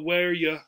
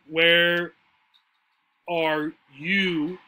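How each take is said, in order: First: The word 'are' is dropped completely. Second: The word 'are' is clearly pronounced. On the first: "The R often just goes away completely" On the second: "when we're saying this expression"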